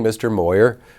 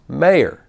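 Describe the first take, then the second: First: The first vowel sounds like the 'oy' in boy. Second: The first vowel sounds like the 'ay' in day. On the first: The speaker calls it wrong. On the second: The speaker calls it right.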